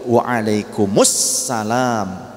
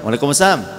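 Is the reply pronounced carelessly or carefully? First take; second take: carefully; carelessly. First: The reply is said carefully with every sound clear. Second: The reply is said carelessly with sounds changed. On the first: It wishes peace on the listeners. The speaker calls it right. "Kita jawab juga" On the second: It wishes harm on the listeners. The speaker calls it wrong. "juga buat kalian celaka"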